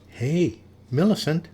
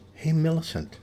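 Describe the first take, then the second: First: It is whispered more loudly. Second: It is whispered very softly.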